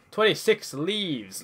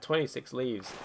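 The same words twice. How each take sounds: First: Excited, slow. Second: Said in the usual way. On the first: Real, not acted. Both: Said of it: "repeats the count".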